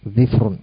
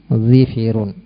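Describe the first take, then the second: First: An i vowel follows the first consonant, none the second. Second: Both of the first two consonants take an i vowel. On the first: "mengkasrah huruf dhad dan mensukun huruf fa" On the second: "mengkasrah huruf dhad dan huruf fa-nya"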